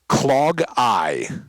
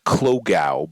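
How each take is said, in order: First: The word ends with an eye sound. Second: The word does not end with an eye sound. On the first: The speaker calls it right. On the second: The speaker calls it wrong. "whatever I said wrong initially was wrong"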